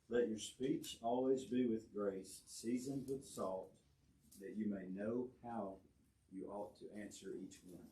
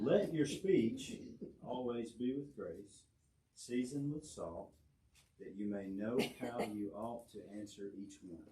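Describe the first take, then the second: First: It is read at a quieter volume. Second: It is read at a louder volume.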